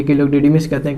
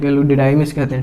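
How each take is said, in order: First: "didymis" with an ee sound in the middle; DIDYMIS with short i. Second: "didymis" with an eye sound in the middle; DIDYMIS with long i. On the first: Teacher showing students one common variant, "didymis" said DEE-dee-mis. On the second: Teacher showing students the other variant, "didymis" said dih-DYE-mis. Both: Shown as a demonstration.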